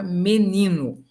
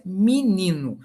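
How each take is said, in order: First: "menino" com e claro na primeira sílaba; pronúncia com e. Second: "menino" dito mininu; pronúncia com i. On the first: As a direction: diga "menino" começando com mê. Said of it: "O me, que vira mi". ("menino" com a primeira sílaba mê) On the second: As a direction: troque o e de "menino" por i: mi-ni-nu. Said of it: "você pode ouvir a pronúncia". ("menino" começando com mi, terminando em u) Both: Shown as a demonstration.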